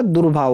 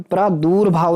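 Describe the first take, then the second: First: दुर्भाव with short u in dur; corrected vowel. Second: प्रादुर्भाव with long oo, praa-door-bhaav; wrong vowel. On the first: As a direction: keep 'dur' short in दुर्भाव. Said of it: "दुर माने छोटा". (दुर्भाव में 'दुर' छोटा बोलें) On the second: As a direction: stretch 'door' in प्रादुर्भाव. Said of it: "नहीं होता". (प्रादुर्भाव में 'दूर' लंबा बोलें) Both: Shown as a demonstration.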